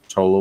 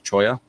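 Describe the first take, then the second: First: The middle consonant is an L sound. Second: The middle consonant is a Y sound. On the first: This is the common everyday pronunciation. The speaker calls it wrong. "most people say" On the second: This is the proper pronunciation of the cactus name. The speaker calls it right. "I believe the cactus is actually pronounced choya"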